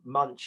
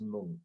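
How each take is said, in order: First: The word ends with a ch sound. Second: The word ends with a k sound. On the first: The speaker calls it wrong. "Munch is something you eat" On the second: The speaker calls it right. "That's actually pronounced monk"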